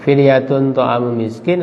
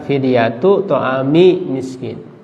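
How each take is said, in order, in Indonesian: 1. Kata pertama diakhiri dengan bunyi n yang ditambahkan. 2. Kata pertama diakhiri dengan vokal biasa, tanpa n. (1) "dalam qiraah kita kan fidyatun" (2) "mengidofatkan fidyah kepada ta'am"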